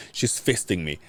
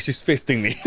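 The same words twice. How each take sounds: First: Said in the usual way. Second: Repeated through laughter; laughing. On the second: Retold or imitated. Friend repeats patient's line, laughing at it. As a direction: say it again, cracking up.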